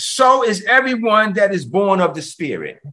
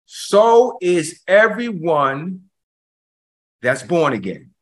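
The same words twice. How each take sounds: First: Said in the usual way. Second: Verse spaced out very slowly, dropping on "born again"; slow right down, pause before "that's born again"; deliberate, drawn-out preaching for emphasis; slow emphatic repeat. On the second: Shown as a demonstration. Slow repeat after calling listen thrice.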